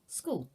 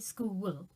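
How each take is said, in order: First: The word is said as one syllable. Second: The word is split into two syllables. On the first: The speaker calls it right. "So that just has one syllable" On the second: The speaker calls it wrong. "I don't say that with two syllables. I don't say school"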